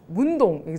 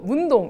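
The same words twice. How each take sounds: First: The stress falls on the second syllable. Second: The stress falls on the first syllable. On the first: The usual way the word for a neighborhood is said. The speaker calls it wrong. "동을 좀 강조를 강세를 두는데" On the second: The local dialect way of saying the place name. The speaker calls it right. "저희가 사투리로 문동 이렇게 얘기를"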